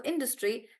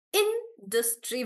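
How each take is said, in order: First: Said in the usual way. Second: "Industry" slowly as in-dus-try; syllable by syllable. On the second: Shown as a demonstration. Teacher praising a good example, syllable by syllable. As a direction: sound out "Industry" in three beats. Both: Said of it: "we break the word into syllables".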